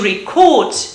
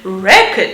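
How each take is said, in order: First: The stress is on the second syllable. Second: The stress is on the first syllable. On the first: It is used as a verb. "To record" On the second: It is used as a noun. "the main accent is shifted to the left"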